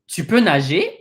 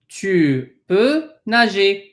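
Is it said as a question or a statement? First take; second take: question; statement. First: The voice rises at the end like a question. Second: The voice falls at the end like a statement. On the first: It asks whether the listener can swim. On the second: It states that the listener can swim.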